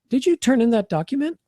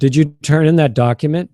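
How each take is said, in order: First: It is light, friendly, with a rising tune. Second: It is heavy, controlling, without a light rise. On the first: The asker wants to keep things positive. The speaker calls it right. "Great to use upward intonation. Great to use a lighter kind of voice" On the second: The asker is checking up on the listener. The speaker calls it wrong. "That can sound very controlling"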